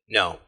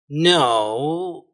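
First: It sounds sure and convinced. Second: It sounds doubtful and hesitant.

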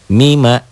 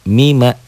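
Both takes have the same delivery.

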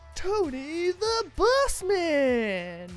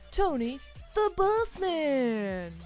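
First: It is said in a booming announcer voice. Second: It is said in an ordinary speaking voice.

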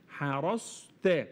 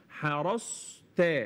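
The two takes are said the same way.

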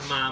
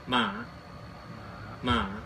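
First: The pitch stays level and mid-high throughout. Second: The pitch dips down and then comes back up. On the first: "什么都没有写的是妈，就跟一声一样" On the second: "长得很像问号的，它就念妈妈"

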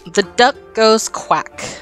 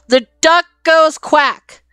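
First: It is said at a normal volume. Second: It is said loudly, almost shouted.

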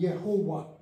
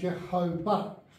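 First: The word begins with a 'y' sound. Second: The word begins with a 'j' sound. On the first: This is how German or Dutch speakers say it. "if you're German, Dutch, Ukraine... So you're saying Yehovah" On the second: This is how English speakers say it. "because we're English, we say Jehovah"

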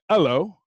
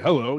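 First: The word is said with a British accent. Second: The word is said with a plain accent. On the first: "It's English with a British accent" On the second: "You don't say hello"

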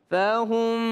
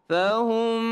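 The two takes are said the same way.

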